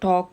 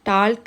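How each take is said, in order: First: The word is said with no L sound. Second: The word is said with an audible L sound. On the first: The speaker calls it right. "പറയുന്നത് ടോക്ക് എന്നാണ്" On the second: The speaker calls it wrong. "ടാൽക്ക് എന്നുള്ള"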